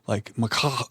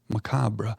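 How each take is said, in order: First: The word ends with a harsh, throaty sound. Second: The word is said with a plain, smooth ending.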